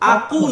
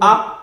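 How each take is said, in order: First: The final consonant is released into a full 'u'. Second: The final consonant has only a brief vowel echo. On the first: The speaker calls it wrong. "আকু না" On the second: The speaker calls it right. "বরং আক"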